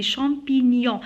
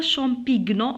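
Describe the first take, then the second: First: "champignon" ending in a -nyon glide; "champignon" with gn melted into ny; correct gn sound. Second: "champignon" misread as champig-non; "champignon" with a hard g; wrong hard g. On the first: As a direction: say "champignon" with no hard g. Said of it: "on dit champignon". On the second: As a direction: sound the g before n in "champignon". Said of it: "on dit pas champignon". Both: Shown as a demonstration.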